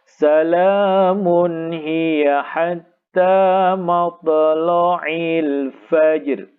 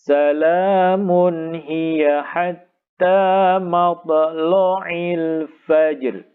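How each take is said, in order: Both takes have the same delivery.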